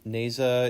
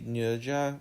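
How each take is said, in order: First: The name is said with an American-style pronunciation. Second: The name is said with a Chinese-like pronunciation. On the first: "how it would probably read to an American audience" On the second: "I tried to say it the way it reads in Chinese"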